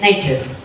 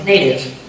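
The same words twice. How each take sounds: First: The word is said carefully and fully. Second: The word is said in relaxed natural speech. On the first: "In careful speech, or in some accents" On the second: "in my natural speech"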